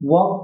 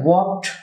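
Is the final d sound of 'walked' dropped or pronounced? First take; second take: dropped; pronounced. First: The final d sound is dropped. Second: The final d sound is pronounced. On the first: The speaker calls it right. "আমরা বলবো ওয়াক slowly" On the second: The speaker calls it wrong. "ওয়াকড না বলে"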